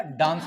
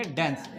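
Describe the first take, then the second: First: डांस with a long open "aa", as in "father"; British pronunciation. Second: डांस said as "dens", with a front "ae" vowel; American pronunciation. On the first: Teacher showing class how the British say it, डांस with long "aa". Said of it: "ये जो British है". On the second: Teacher showing American English, डांस said with "ae" as in "cat". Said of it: "जो American English में". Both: Shown as a demonstration.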